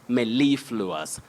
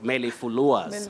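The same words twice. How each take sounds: First: The main stress is on the second syllable. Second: The main stress is not on the second syllable. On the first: The speaker calls it right. "we have a primary stress on the second syllable" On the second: The speaker calls it wrong. "not mellifluous"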